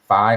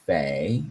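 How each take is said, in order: First: The vowel sounds like 'eye'. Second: The vowel sounds like 'ay'. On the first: "I've heard it saying phi all my life" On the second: "Maybe it's fay"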